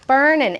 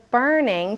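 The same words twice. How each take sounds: First: "Burning" shortened to end in n; dropped g. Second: "burning" with its whole ing ending; full ing. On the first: Teacher contrasting short form, "Burning" without g. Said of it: "instead of burning to make it". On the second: Teacher contrasting long form, "burning" with full ing. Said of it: "A little bit shorter". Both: Shown as a demonstration.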